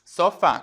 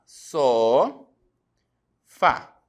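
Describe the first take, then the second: First: Said in the usual way. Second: "Só, fá" split with a long pause; syllable by syllable. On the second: Shown as a demonstration. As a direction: separate the syllables: "Só" ... "fá", each drawn out. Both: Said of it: "Como é que eu separo a palavra sofá".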